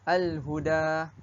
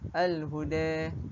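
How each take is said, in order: First: The final vowel is a plain open a. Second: The final vowel is tilted toward e.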